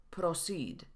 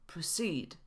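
First: Proceed with a full Polish o; mispronounced proceed. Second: Proceed with a weak, neutral first vowel; schwa in proceed. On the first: Retold or imitated. Teacher repeating a YouTuber's mistake, proceed with full o. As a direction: say proceed as spelt, clear o in the first syllable. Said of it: "Wymówione było". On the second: Shown as a demonstration. Teacher modelling the word for Polish learners, proceed with schwa. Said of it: "ale wymawiamy tutaj szła".

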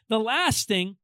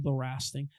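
First: Said in the usual way. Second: "last" as "rast", low and quiet; mispronounced LAST. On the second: Shown as a demonstration. Preacher echoing his own slip, "last" said as "rast". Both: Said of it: "But then the ra".

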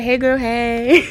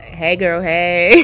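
First: Slow greeting. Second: Bright greeting. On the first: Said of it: "usually, I'd be like". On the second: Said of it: "I need you to be like". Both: Shown as a demonstration.

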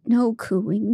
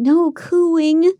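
First: Said in the usual way. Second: Insist, pushing the pitch up; louder and higher. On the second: A narrator's reading. Marie telling AJ in bed to quit cooing, louder and higher. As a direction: repeat it louder, up high.

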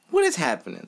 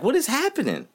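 First: Said in the usual way. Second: Higher, incredulous question; exasperated disbelief. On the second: Real, not acted. Fan asking about his team's defense, incredulous. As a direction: ask it like you can't believe it.

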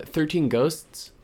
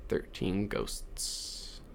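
First: "Thirteen Ghosts" stretched slowly, pitched higher; slow drawn out. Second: "Thirteen Ghosts" whispered very slowly and softer; spooky whisper. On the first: Naming a scary movie, drawn out. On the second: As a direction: breathe "Thirteen Ghosts" eerie and slow. Repeats title in spooky whisper. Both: Shown as a demonstration.

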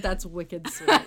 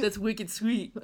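First: Repeats wicked sweet laughing, in a light Boston twang; laughing mock of her own accent; laughing Boston quote. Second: Teasing Boston drawl on wicked sweet; lightly put-on New England accent, teasing; mock Boston accent. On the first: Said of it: "I've never said". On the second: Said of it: "I've never said that in my life".

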